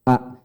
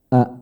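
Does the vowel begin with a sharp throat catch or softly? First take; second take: sharp catch; softly. First: The vowel starts with a pressed throat catch. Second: The vowel starts softly, without a throat catch. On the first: The speaker calls it right. "tapi ada tekan di sini" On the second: The speaker calls it wrong. "Jadi bukan A"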